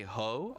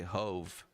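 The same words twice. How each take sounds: First: "ho" ending on an open vowel; "ho", just h and a long o; full word without final v. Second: "Hove" closed with a v sound; "Hove", long o then a final v; short nickname with v. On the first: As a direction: say "ho" with no v at the end. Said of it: "I don't say ho". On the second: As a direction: say "Hove" as one syllable ending in v. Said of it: "I'll just say Hove". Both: Shown as a demonstration.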